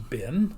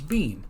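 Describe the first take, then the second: First: The word has a short vowel, like bin. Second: The word has a long vowel, like bean. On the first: "say the word B E E N as bin" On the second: "or as bean"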